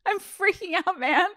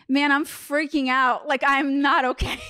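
First: Giggling through the mock panic, much higher; can't keep a straight face on the quote; laughing at her own freak-out. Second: Slow, higher, drawn-out mock panic; a hammed-up plea to a friend; mock freaking out. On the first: Repeats the quote while laughing. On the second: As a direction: play up the shroom panic, half joking. Retelling her own panicked words on shrooms.

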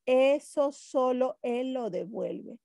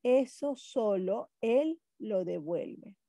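First: Slow ESO SOLO ÉL with ÉL joined to LO DEVUELVE; measured reading, ESO leading, ÉL running on; comma contrast, first take. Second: Slow, ÉL lifted, pause before LO DEVUELVE; comma contrast, second take. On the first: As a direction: read ESO SOLO ÉL LO DEVUELVE slowly in one phrase. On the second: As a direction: set ÉL apart with a rise, then LO DEVUELVE. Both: Shown as a demonstration. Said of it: "Una coma puede crear héroes".

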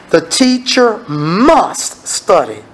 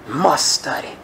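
First: Teacher drawn out slow and low, each word weighed; slow emphasis. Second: "Must study" dropped low and soft, a hushed repeat; soft echo. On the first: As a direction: lean hard on "teacher", slowly. Preacher stressing key point. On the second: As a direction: let "Must" land quietly. Echoing the point softly. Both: Acted.

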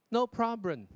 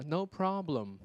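First: NO PROBLEM with the final M not closed; mispronounced, lips left open. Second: NO PROBLEM slowly, lips pressed shut on the final M; careful "problem" with a clear closed M. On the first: Retold or imitated. Teacher imitating students' common slip, mispronounced "problem". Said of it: "有没有？". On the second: Shown as a demonstration. Teacher showing students the correction, clearly closed final M. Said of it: "你把这个双唇闭起来啊".

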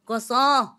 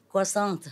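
First: Croissant as kwa-SSAN, no T, raised and louder; croissant the French way, end cut off. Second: Croissant with a hard T at the end, English style; croissant the wrong way, T pronounced; anglicised croissant. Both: Shown as a demonstration. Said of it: "with the T".

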